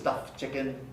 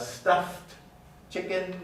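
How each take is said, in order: First: The T sound in stuffed is left out. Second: The T sound in stuffed is clearly pronounced.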